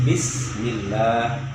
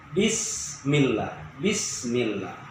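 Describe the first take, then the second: First: Slow bismillah with an airy s; correct bismillah. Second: Bismillah said slowly and softer; wrong bismillah. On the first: Teacher giving the right bismillah after the wrong one. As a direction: say bismillah with the s flowing. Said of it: "harus biasa". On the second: Teacher showing how bismillah should not sound. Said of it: "tidak begitu". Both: Shown as a demonstration.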